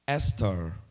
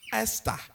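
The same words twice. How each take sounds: First: The name is said with an American accent. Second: The name is said with a Ghanaian accent. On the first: "Trying to be a bit American" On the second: "That is too Ghanaian"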